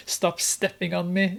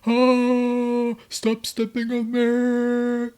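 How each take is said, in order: First: Said in the usual way. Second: Loud, high, drawn-out wail; mock wailing scream. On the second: Grace begging Joe to stop stepping on her, mock wail. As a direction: wail it out in hammed-up agony. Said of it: "And she's".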